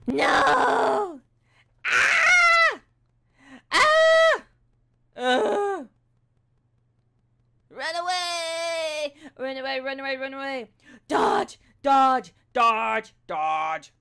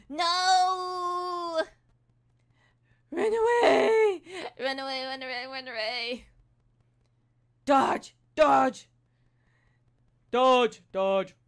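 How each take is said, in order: First: High piercing game screams and shouts; panicked gamer screaming run away and dodge; test screams. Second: High strained cries of run away; panicked gamer shouting, voice cracking; test screams. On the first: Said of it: "So we're gonna be like, ... test out our screams". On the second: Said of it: "we're gonna do the same screams". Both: Shown as a demonstration.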